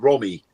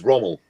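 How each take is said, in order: First: The name ends without the final L sound. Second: The name ends with a clear L sound. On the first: The speaker calls it wrong. "You said Romy" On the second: The speaker calls it right. "it was Rommel"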